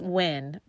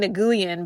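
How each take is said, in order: First: The name is said unlike its written spelling. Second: The name is sounded out following its spelling. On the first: The speaker calls it right. "it's pronounced Nguyen" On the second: The speaker calls it wrong. "I called her Nguyen because her last name is spelled N G U Y E N"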